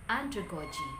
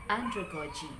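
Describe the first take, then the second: No difference in how they are said.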